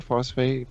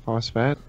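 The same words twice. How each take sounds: First: "Phosphate" with a long ay, like fate; unsure pronunciation. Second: "phosphat" ending like fat, questioning; unsure pronunciation. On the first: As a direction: say "Phosphate" ending in FAYT. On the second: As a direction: say "phosphat" with a short a, as in cat. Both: Shown as a demonstration. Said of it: "I don't know how to pronounce that".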